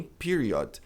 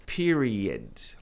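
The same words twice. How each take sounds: First: PERIOD with a full "od"; wrong pronunciation of period. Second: PERIOD with a weak "ed" ending, lower; PERIOD, final vowel reduced; correct pronunciation of period. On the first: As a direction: say "period" slowly as PEE-ree-ODD. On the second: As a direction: say "period" as PEER-ee-ud. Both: Shown as a demonstration. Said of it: "E nem period".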